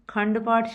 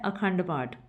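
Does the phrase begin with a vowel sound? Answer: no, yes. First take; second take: no; yes. First: The initial vowel sound is dropped entirely. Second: The phrase begins with an initial vowel sound. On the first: This is the everyday spoken form. "ਅਖੰਡ ਪਾਠ ਦੀ ਥਾਵੇਂ ਅਸੀਂ ਖੰਡ ਪਾਠ ਸ਼ਬਦ ਦਾ ਹੀ ਉਚਾਰਨ ਕਰਦੇ ਹਾਂ" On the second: This is the full original form. "ਅਸਲੀ ਸ਼ਬਦ ਹੈ"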